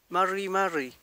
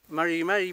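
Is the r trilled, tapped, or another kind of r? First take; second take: trilled; another kind. First: The r is a strong trill. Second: The r is neither trilled nor tapped. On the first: The speaker calls it wrong. "Si fuera con doble R diría" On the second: The speaker calls it right. "Esa sería la forma"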